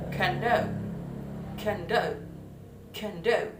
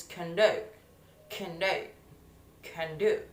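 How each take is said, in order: First: "conduct" as a verb, stress meant on DUCT; higher "conduct", stressed on the second syllable; raised teacher's model of "conduct", stressing DUCT. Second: "conduct" as a noun, stress meant on CON; teacher's noun "conduct", first syllable stressed. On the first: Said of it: "the syllable stress in the second". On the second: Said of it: "The syllable stress in the first". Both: Shown as a demonstration.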